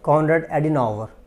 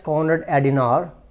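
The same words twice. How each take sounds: First: The name is said with an American pronunciation. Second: The name is said with a British pronunciation. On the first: "whereas American pronounce it Konrad Adenauer" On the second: "It is read as Konrad Adenauer by the British"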